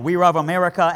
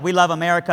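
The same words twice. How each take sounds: First: Put-on Chinese accent, love said like ruv; light imitation of a Chinese accent on the word love; new citizens with Chinese accent; mock Chinese accent. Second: Said in the usual way. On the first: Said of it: "they were like". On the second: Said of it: "we were like".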